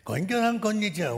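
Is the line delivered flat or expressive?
expressive. The line is said with lively, dramatic expression. The speaker calls it wrong. "みたいなやり方で全部言ってますね。そうしなくていいんです。"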